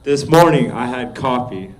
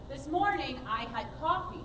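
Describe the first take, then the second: First: Spoken with a falling end on "coffee"; "coffee" drops down at the end; flat ending. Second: Spoken with a lilt, rising at the end; musical speaking. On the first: Student speaking the line, falling at the end. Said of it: "notice the second time you spoke it". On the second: Coach speaking the line musically for the student. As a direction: speak it with sung-like tune. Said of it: "Now speak it". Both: Shown as a demonstration.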